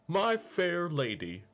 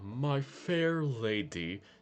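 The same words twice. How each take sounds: First: It is said quickly with bright energy. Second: It is said slowly with little energy. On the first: This is how the character sounds now. "he's more upbeat now... Speaks a bit faster" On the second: This is how the character used to sound. "Before he was like"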